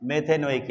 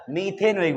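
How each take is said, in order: First: मेथेनोइक with a short "meh" at the start; first vowel as "meh". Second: मीथेनोइक with a long "ee" in the first syllable; first vowel as "mee". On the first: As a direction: open मेथेनोइक on an "eh" sound, not "ee". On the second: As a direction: open मीथेनोइक like English methane, "mee-the". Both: Shown as a demonstration. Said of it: "बोलते हैं इसको ऐसे".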